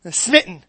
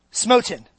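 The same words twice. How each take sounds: First: "Smitten" with the short i of "sit", SMIT-n; "Smitten" said quickly, the word she then rejects; SMIT-n, the mistaken form; wrong word. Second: "Smoten" said as SMOH-tn, long o, stress on the first syllable; "Smoten" with the vowel of "smoke"; SMOH-tən, the word she settles on; intended word. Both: Shown as a demonstration. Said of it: "no, not smitten".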